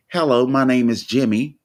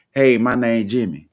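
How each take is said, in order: First: Mild put-on "Hello, my name is Jimmy" in careful standard American English, full "is"; proper standard accent. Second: Relaxed "Hey, my name Jimmy" in everyday Black American English, no "is"; casual Black vernacular. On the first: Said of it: "you try to change your accent to sound more acceptable". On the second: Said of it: "instead of saying". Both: Shown as a demonstration.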